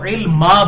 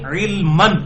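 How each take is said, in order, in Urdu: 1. یہ لفظ لمبی a کی آواز پر ختم ہوتا ہے۔ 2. یہ لفظ n کی آواز پر ختم ہوتا ہے۔ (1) "جب اسے وقف کریں گے تو علما بن جائے گا" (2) "رب زدنی علمن لفظ ہے"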